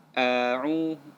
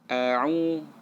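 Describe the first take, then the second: No difference in how they are said.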